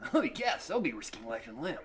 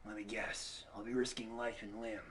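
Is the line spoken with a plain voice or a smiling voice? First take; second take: smiling; plain. First: It is spoken through a smile, sounding brighter. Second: It is spoken in a plain, unsmiling voice.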